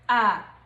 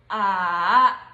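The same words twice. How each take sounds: First: It is said in the neutral tone. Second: It is said in the third tone. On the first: "The last one is the neutral tone" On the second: "This one is the third tone"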